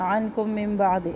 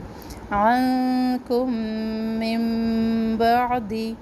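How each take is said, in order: First: The nasal sounds are cut short without holding. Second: The nasal sounds are held for one beat. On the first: The speaker calls it wrong. "ऐसे नहीं पढ़ना" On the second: The speaker calls it right. "इन सब पर एक एक अलिफ के बराबर ठहरना है"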